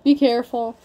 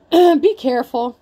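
First: Said in the usual way. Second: Louder, slow, firm warning; slow it down and lean on it; a stern caution, drawn out; emphatic warning. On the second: Shown as a demonstration.

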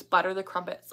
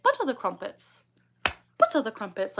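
First: Said in the usual way. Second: Lightly put-on British accent. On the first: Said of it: "in a British accent". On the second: Shown as a demonstration. Streamer showing her old tic, British accent. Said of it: "like that".

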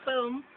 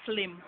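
First: Said in the usual way. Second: "film" said flim; Jamaican pronunciation. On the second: Shown as a demonstration. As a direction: Jamaican "film" with l moved forward. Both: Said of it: "we would say film".

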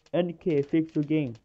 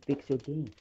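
First: Louder mock complaint from the players; quoting angry players. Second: Said in the usual way. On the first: Streamer quoting players' complaint to Ninja Kiwi, louder. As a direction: chant it like a fed-up player. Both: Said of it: "I've been seeing people say".

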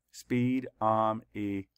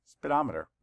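First: Slowed, each syllable drawn out. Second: Said in the usual way. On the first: Shown as a demonstration. Teacher counting syllables for the class, slow and drawn out. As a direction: count out each beat slowly. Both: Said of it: "Count the syllables".

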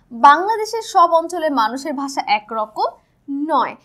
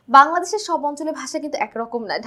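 First: Slow, deliberate reading aloud of the book sentence; reading from the textbook. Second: Said in the usual way. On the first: Shown as a demonstration. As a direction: read the line out slowly, word by word, like a textbook. (বই থেকে ধীরে ধীরে পড়ে শোনানো) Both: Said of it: "একটু দেখে নিই".

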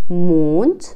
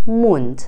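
First: "موند" as German Mond, long closed O; "موند" with a long vowel and rising end; long vowel, moon word. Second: "موند" as German Mund, short U; "موند" with a quick short U; short vowel, mouth word. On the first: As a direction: draw out the vowel of "موند", "moont". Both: Shown as a demonstration.

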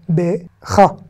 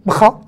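First: BE, then CHA, a clear pause between; stopping after be. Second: BRA run together, b straight into a throaty kh; no vowel. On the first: Teacher showing where Hebrew pauses, syllables separated. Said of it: "qu'on s'arrête". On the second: Teacher showing the hard cluster, no vowel after b. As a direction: say "bra" as one syllable, bkha. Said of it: "c'est difficile de dire br". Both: Shown as a demonstration.

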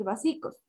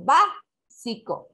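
First: Vasicos with the stress moved off its first syllable; misplaced stress. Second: Básico slowed, BÁ punched louder and drawn out; stress on BÁ. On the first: Teacher showing students a wrongly accented word, misplaced stress on vasicos. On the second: Teacher showing the needed accent in a word, stress on BÁ in básico. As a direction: hit the first syllable of básico hard. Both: Shown as a demonstration. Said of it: "porque empleo el acento necesario".

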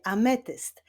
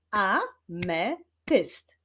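First: Said in the usual way. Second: "Ametyst" slowly split as a, me, tyst; syllable by syllable. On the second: Shown as a demonstration. Teacher clapping syllables with pupils, "Ametyst" said syllable by syllable. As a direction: sound out "Ametyst" in three separate beats. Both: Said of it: "wyklaszczmy sylaby w wyrazie ametyst".

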